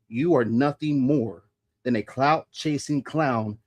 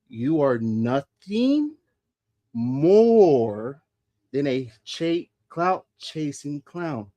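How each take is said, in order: First: It is said at normal speed. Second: It is said more slowly.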